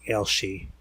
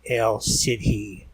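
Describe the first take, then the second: First: The middle consonant is an 'sh' sound. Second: The middle consonant is a plain 's' sound. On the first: The speaker calls it right. "I think it's pronounced more like Elshi" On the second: The speaker calls it wrong. "It looks like her name should be pronounced El Sidhi"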